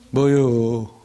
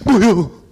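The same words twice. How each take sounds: First: The voice sounds displeased. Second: The voice sounds scared. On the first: "그러면 기분 나쁠 때" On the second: "무서울 때"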